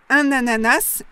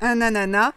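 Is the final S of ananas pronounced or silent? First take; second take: pronounced; silent. First: The final S is pronounced. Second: The final S is silent. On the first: "prononcer le S final" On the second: "ne pas prononcer le S final"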